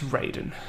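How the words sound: The name is pronounced the American way. "In the games and American culture"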